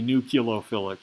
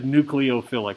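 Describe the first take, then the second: First: The start sounds like 'new-kyuh-loh'. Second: The start sounds like 'new-klee-oh'. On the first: "I did not say nucleophilic" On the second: "I said nucleophilic"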